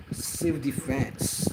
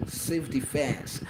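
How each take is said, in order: Both takes have the same delivery.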